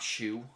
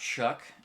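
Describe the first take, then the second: First: The name ends with an oo vowel. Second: The name ends with a k sound. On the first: The speaker calls it wrong. "not Shoe. So last week when I pronounced it Shoe, uh, I was wrong" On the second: The speaker calls it right. "It's pronounced Shuck"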